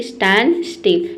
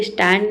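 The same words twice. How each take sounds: First: स्टैंड स्टिल as "stan-still", no D; silent D. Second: स्टैंड ending in a clear D; D sounded. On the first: Teacher models the right form, स्टैंड स्टिल with silent D. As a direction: drop the D in स्टैंड स्टिल, slowly. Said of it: "इसे स्टैंड नहीं बोलेंगे". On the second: Teacher shows what not to say, स्टैंड with sounded D. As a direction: voice the final D of स्टैंड. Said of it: "नहीं बोलेंगे". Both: Shown as a demonstration.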